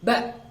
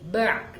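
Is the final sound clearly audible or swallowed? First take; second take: clear; swallowed. First: The final sound is clearly audible. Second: The final sound is swallowed and unclear. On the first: The speaker calls it right. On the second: The speaker calls it wrong. "tidak boleh"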